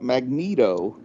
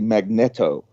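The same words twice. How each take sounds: First: It is pronounced the way comic fans say it. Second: It is pronounced the way physicists say it. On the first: It is the fandom's accepted way to say it. The speaker calls it wrong. "Just like we say uh, magneto" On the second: It is how an expert in the field would say it. The speaker calls it right. "a physicist would say magneto"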